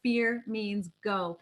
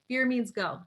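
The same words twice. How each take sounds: First: Slow, deliberate. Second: Said in the usual way. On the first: Shown as a demonstration.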